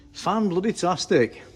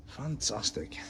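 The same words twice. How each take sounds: First: "Fan bloody tastic" higher and slow, "bloody" wedged in; emphatic delight. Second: Said in the usual way. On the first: Real, not acted. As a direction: draw out "Fan bloody tastic" with real glee.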